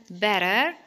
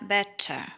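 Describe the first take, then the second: First: "better" with the T as a light D; American BETTER. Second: "better" with a true crisp T; British BETTER. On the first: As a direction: tap it like "bedder", R sounded. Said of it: "هنقولها في الأمريكان أكسنت". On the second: Teacher showing British "better", clear-T pronunciation. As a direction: sound the T fully in "better". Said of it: "في البريتش أكسنت هنقولها". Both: Shown as a demonstration.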